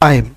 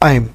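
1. এটা এক সিলেবলে বলা হয়, স্বরটি গড়িয়ে যায়। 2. এটা এক সিলেবলে বলা হয়, স্বরটি গড়িয়ে যায়।

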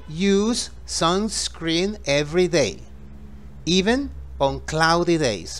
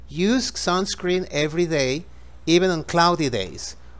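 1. La oración se dice más despacio. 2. La oración se dice más rápido.

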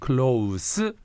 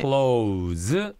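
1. 이 단어는 쉭쉭거리는 s 소리로 끝납니다. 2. 이 단어는 윙윙거리는 z 소리로 끝납니다. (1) "가까운" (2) "닫히다"

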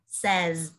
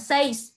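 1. Nghe không giống 'say' cộng s. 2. Nghe giống 'say' có thêm s. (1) "mà đọc là says" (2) "Không đọc là says"

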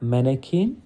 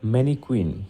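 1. শব্দটি 'kin' ধ্বনি দিয়ে শেষ হয়। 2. শব্দটি 'kwin' ধ্বনি দিয়ে শেষ হয়। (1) "শুদ্ধোচ্চারণ হচ্ছে ম্যানেকিন" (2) "এটার প্রচলিত একটা প্রনাউন্সিয়েশন আছে ম্যানিকুইন, তো ওটা ভুল"

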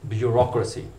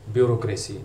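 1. यह ब्रिटिश लहजे में बोला गया है। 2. यह दक्षिण एशियाई गैर-मातृभाषी लहजे में बोला गया है। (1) "ब्रिटिश प्रोनंसिएशन इसकी है" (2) "ब्यूरोक्रेसी पढ़ा जाता है इस लफ्ज़ को"

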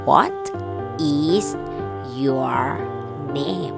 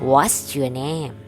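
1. คำว่า 'is' ออกเสียงเต็มและแยกต่างหาก 2. คำว่า 'is' ลดเหลือเสียง s (1) "ถ้าเป็นประโยคเต็มๆเขาจะถามว่า" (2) "ส่วนใหญ่แล้วเขาจะออกเสียงแบบย่อๆนะคะไม่ออกเสียง is ชัดๆเขาจะเป็น what เติม s"

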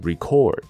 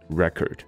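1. 读的是动词发音。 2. 读的是名词发音。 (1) "那它的动词发音是record" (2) "如果它是名词的话，就是record"

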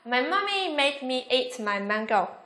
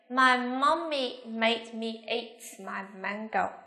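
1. Câu này được nói với tốc độ nhanh nhất. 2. Câu này được nói với tốc độ bình thường. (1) "Nhanh hơn nữa nào"

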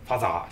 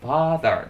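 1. 最初の母音は短く切ります。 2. 最初の母音は長く伸ばします。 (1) "ファザーじゃありません" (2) "発音ファーザーですからね"

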